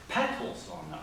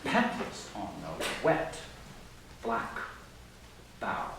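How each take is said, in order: First: "Petals" hit hard, "on the" light and falling; strong first beat, unstressed syllables tossed away; stress on petals. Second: Emphatic slow spondees at the line's end; three final stresses. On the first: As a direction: lean into "Petals", then skim "on the". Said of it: "begins with a stress syllable, petals". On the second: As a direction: land each of the last three words slowly. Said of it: "three final stressed syllables". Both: Shown as a demonstration.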